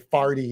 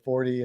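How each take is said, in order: First: It is said in a Saint Louis accent. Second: It is said in a standard accent. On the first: "in Saint Louis we say farty" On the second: "instead of forty"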